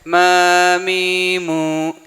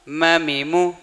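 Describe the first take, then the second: First: Each vowel is stretched out long. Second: Each vowel is short and clipped. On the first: The speaker calls it wrong. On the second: The speaker calls it right.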